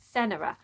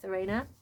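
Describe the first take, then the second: First: The second consonant is an N sound. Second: The second consonant is an R sound. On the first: The speaker calls it right. "there we go" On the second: The speaker calls it wrong. "I've been calling her Serena"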